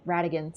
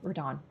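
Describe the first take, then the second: First: "Radagon" said in full, three syllables; "Radagon" corrected: RA-da-gon; corrected name. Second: "Radon" said as the short wrong name; "Radon", two syllables, said by mistake. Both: Real, not acted.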